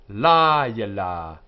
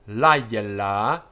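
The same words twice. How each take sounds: First: The first vowel is longer and heavier. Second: The first vowel is short and light. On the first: This is the form used at a particular place in a verse. "in the middle of a word, of a verse, sorry, it is written and pronounced layla" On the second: This is the word's ordinary form. "in its standard form is layla"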